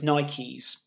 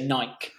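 First: The word is said with more syllables. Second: The word is said with fewer syllables. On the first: This is how the artist says it. "I'm going to pronounce it how he does" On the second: This is how the speakers would normally say it. "we might just say Nike"

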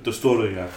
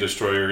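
First: It is said in a thick Japanese accent. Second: It is said in a plain American accent.

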